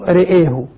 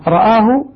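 First: The vowel after r leans toward e. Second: The vowel after r is an open a. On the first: "والإمالة" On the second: "الفتح"

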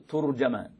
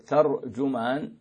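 First: The t takes u, the j takes a. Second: The t takes a, the j takes u. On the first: "بضم التاء وفتح الجيم" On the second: "وبفتح التاء وضم الجيم"

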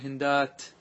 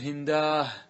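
First: The word ends with a t sound. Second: The word ends with an h sound. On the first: This is the standard pausal form. "تقول هندات" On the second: This is a rare dialect form. "يقلبها إلى هاء"

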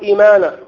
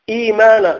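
First: The vowel after the hamza is cut short. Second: The vowel after the hamza is lengthened. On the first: The speaker calls it wrong. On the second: The speaker calls it right.

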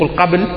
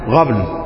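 First: The word begins with a q sound. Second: The word begins with a gh sound. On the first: The speaker calls it right. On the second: The speaker calls it wrong.

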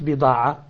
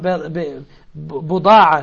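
First: The first vowel is an 'i' sound. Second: The first vowel is an 'u' sound. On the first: The speaker calls it wrong. "nicht Bida'a" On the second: The speaker calls it right. "Buda'a, nicht Bida'a"

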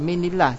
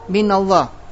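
First: The vowel after min is i. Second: The vowel after min is a. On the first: The name Allah loses its full heavy sound. The speaker calls it wrong. "Kalau diberikan kasro" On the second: The reading is light and keeps Allah full. The speaker calls it right. "di situ dihidupkan dengan fathah"

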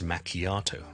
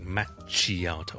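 First: The middle consonant is a 'k' sound. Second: The middle consonant is a 'ch' sound. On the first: The speaker calls it right. "係it's macchiato" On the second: The speaker calls it wrong. "由於見到個CH 咧就讀成che，唔好讀成macchiato"

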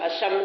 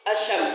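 No difference in how they are said.

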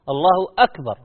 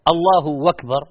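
First: The second word starts with a glottal stop. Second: The second word starts with a w sound. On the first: The speaker calls it right. "الله أكبر بالهمزة" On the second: The speaker calls it wrong. "بعض الناس يقول الله أكبر بالواو وهي همزة ... وليست"

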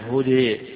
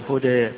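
First: The final vowel leans fully toward an 'e' sound. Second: The final vowel falls between 'a' and 'e'. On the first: "وإما الإضجاع الإمالة" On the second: "وإما بين بين"

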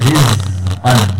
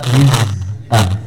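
Both takes have the same delivery.

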